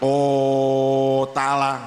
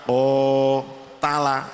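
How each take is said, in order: First: The first vowel is held far too long. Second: The first vowel is held long. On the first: The speaker calls it wrong. "jangan terlalu panjang, jangan o tala" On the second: The speaker calls it right. "tapi o tala, itu namanya sudah menunjukkan panjang"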